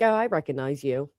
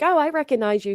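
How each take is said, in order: First: It sounds cold and displeased. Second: It sounds warm and pleased. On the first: The speaker disapproves of seeing the person again. "She said, like" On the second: The speaker is glad to see the person. "she didn't say it with, like, you know, pleasure"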